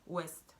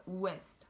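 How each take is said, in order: No difference in how they are said.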